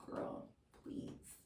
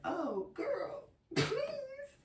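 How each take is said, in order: First: Quiet, toneless brush-off; dismissive. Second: Very high, squeaky plea; mock pleading. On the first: Retold or imitated. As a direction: murmur it as an offhand dismissal. Retelling her past dismissal of his warning. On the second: Now regretful, mock pleading contrast.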